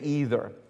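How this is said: It is said with an American pronunciation. "I'm from America. I was born here in America. And I say either"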